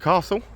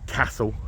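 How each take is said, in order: First: The word is said in a southern English accent. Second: The word is said in a northern English accent.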